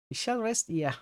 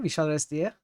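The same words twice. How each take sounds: First: Said in the usual way. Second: "We shall rest here" with a lift on "We" and a rising end; checking how it sounds; questioning. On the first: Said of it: "When you say it naturally". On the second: Shown as a demonstration. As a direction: ask it back, "We" lifted and rising at the close. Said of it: "Do I say it like that?".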